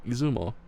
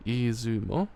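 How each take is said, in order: First: Izumo said firmly as ee-zoo-mo with a falling close, a teacher's model; clear model name. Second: Izumo tried out slowly with a questioning rise at the end; tentative repeat. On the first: Eiji modelling Izumo for Ash, firm and clear. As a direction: give Izumo cleanly as the model to copy. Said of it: "No, that's a gremlin". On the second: Ash trying out Izumo after Eiji, unsure rise. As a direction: echo Izumo back like a learner checking it. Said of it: "Yeah, that's right". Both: Acted.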